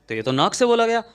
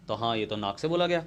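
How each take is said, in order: First: Much higher and louder, triumphant; excited teacher's eureka; emphatic aha. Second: Said in the usual way. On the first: Shown as a demonstration. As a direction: repeat it like you've cracked it. Teacher repeats the answer emphatically.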